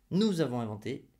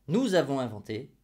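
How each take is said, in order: Both takes have the same delivery.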